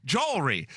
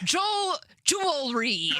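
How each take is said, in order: First: Jewelry copied with a Chicago vowel; imitating jewelry. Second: Jewel-, jewelry said slowly, syllable by syllable; careful jewelry. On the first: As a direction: echo her jewelry in a Chicago accent. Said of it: "What did she just say?". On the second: Shown as a demonstration. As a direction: break jewelry into two parts, then say it whole. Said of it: "Is that how you want me to say it?".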